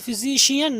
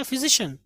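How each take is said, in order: First: फिजिशियन ending in "shi-yan"; common mispronunciation. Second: फिजिशियन ending in a short "shun"; correct pronunciation. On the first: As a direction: say फिजिशियन as "fi-zee-shee-yan". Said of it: "हम इसको पढ़ते हैं". (फिजिशियन के अंत में "शियन") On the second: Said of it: "हम कहेंगे". (फिजिशियन के अंत में "शन") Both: Shown as a demonstration.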